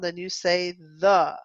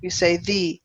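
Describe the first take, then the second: First: The word ends in a short 'uh' vowel. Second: The word ends in a long 'ee' vowel. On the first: It comes before a non-vowel sound. "if there's no vowel sound" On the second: It comes before a vowel sound. "when you have A, E, I, O, U, and it has the vowel sound"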